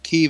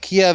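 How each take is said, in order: First: The name is given its Ukrainian pronunciation. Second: The name is given its Russian pronunciation. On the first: The speaker calls it right. "Kiev is how Ukrainians pronounce it" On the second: The speaker calls it wrong. "Kiev is the Russian way to pronounce it"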